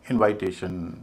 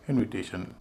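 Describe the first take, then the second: First: The second syllable has a long 'eye' vowel. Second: The second syllable has a short 'i' vowel. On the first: The speaker calls it wrong. "लेकिन बाद के जो चार शब्द हैं उनको वैसा नहीं बोलते" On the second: The speaker calls it right. "हम इनको बोलते हैं"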